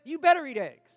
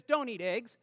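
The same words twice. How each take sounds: First: "better" punched, louder and firm; emphatic command. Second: Said in the usual way. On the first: Shown as a demonstration. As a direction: lean hard on "better", like an order. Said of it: "And the last statement says". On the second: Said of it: "the first statement basically says".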